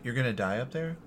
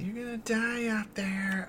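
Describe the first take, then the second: First: The line is said in a plain, normal way. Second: The line is said in a dramatic, exaggerated way.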